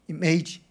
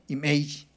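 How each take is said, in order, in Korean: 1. 미국식 발음이에요. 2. 미국식 발음이에요.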